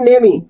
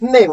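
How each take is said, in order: First: The word ends with an added ee vowel. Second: The word ends on the m sound. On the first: The speaker calls it wrong. "ना कि नेमी" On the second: The speaker calls it right. "इसमें ई नहीं बोलता, सिर्फ नेम"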